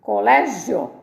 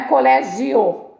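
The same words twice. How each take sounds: First: "Colégio" in three syllables; joined ending. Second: "colégio" as co-lé-gi-Ô, final o on its own; "colégio" with four syllables, heavy final o; wrongly separated ending. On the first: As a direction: stress lé in "Colégio" and keep the end together. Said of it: "Essa não separa". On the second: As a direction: break gio in "colégio" into gi and a strong o. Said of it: "Não é colégio". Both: Shown as a demonstration.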